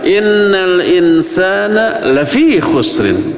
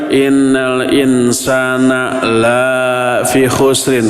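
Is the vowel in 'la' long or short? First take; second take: short; long. First: The vowel in 'la' is kept short. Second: The vowel in 'la' is drawn out long. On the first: Humans are surely at a loss. The speaker calls it right. "Jangan panjang, bacalah pendek" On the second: Humans are not at a loss. The speaker calls it wrong. "Nggak boleh dibaca, dibaca panjang"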